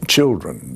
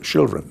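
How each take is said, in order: First: The word begins with a hard ch sound. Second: The word begins with a soft sh sound. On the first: This is how English speakers say it. "They can't hit the the hard ch" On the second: This is how Swedes say it in English. "so they say chil- children"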